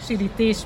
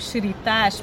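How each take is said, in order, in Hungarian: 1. Az utolsó szótagban elülső 'ee' magánhangzó van. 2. Az utolsó szótagban nyílt 'aa' magánhangzó van. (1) "nem így van" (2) "furcsán ragozták"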